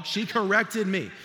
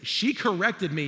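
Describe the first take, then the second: First: "corrected" stressed, loud and slow; emphatic. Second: Said in the usual way. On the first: Real, not acted. Pastor stressing how his mom corrected him. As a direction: lean hard on "corrected". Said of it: "she corrected me, y'all".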